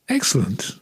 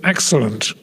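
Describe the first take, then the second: First: It sounds warm and sincere. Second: It sounds forced through clenched teeth.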